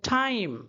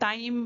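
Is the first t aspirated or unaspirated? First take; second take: aspirated; unaspirated. First: The t is breathy, with a puff of air. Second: The t is plain, with no puff of air. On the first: This is the English way of saying it. "वो लोग बोलते हैं" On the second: This is the Indian way of saying it. "हम लोग बोलते हैं"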